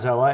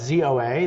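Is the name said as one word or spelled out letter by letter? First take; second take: one word; spelled out. First: The name is said as one single word. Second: The name is spelled out letter by letter. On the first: The speaker calls it wrong. "It's not" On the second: The speaker calls it right. "They they use their letters as their um, pronunciation"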